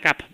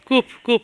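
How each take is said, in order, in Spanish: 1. La vocal suena como 'a', al estilo inglés. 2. La vocal suena como 'u', al estilo español. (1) "No digas CAP porque es como si CUP. Lo pronunciaras en inglés" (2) "CUP, perdón"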